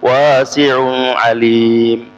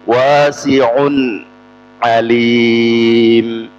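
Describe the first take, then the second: First: The n sound before alim is blurred. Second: The n sound before alim is clear. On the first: The speaker calls it wrong. "jadi bukan wasi'un alim" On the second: The speaker calls it right. "diperjelas nunnya"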